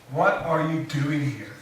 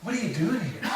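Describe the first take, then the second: First: Slow, weighty question with stress on What; slow deliberate question. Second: Softer, inward take with stress on are; softer inflection. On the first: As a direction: ask it slowly, leaning on "What". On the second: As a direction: ask it gently, leaning on "are", almost to yourself. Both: Shown as a demonstration. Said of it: "maybe you could change your inflections".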